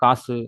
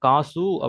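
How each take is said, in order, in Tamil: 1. கடைசி 'உ' குறைஞ்சு சொல்லப்படுது. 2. கடைசி 'உ' முழுசா சொல்லப்படுது. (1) "அந்த சூவோட சவுண்டு வந்து குறைஞ்சிருது" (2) "காசு அப்படிங்கிறதான் கரெக்ட்"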